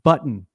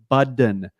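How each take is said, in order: First: The middle T sounds are clearly pronounced. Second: The middle T sounds are dropped, like a D. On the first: The speaker calls it right. "it's Button" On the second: The speaker calls it wrong. "he would never say either T"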